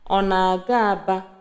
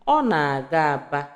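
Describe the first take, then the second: First: It is said with the question tone. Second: It is said with the statement tone. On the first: Asks whether the person is going to Aba. "the tone of the question" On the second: States that the person is going to Aba. "the tone of the response"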